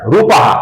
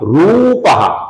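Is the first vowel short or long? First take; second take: short; long. First: The first vowel is said short. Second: The first vowel is said long. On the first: The speaker calls it wrong. "ऐसा ह्रस्व करते हैं जो कि गलत है" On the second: The speaker calls it right. "लंबाई के साथ अर्थात दीर्घ उच्चारण"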